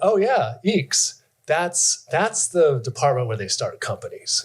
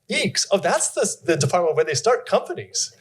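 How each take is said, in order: First: It sounds dismissive and looking down. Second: It sounds impressed and admiring.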